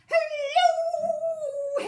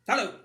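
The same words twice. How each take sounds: First: It is said in a silly, playful way. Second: It is said in a straight, serious way.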